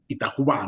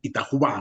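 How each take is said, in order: First: The name is read with Spanish sounds. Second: The same.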